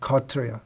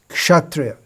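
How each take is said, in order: First: It is said with Bengali pronunciation. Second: It is said with standard pronunciation.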